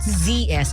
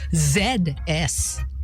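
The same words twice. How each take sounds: First: The letter Z is said as 'zee'. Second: The letter Z is said as 'zed'. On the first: The speaker calls it wrong. "it's not Z S" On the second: The speaker calls it right. "it's British style"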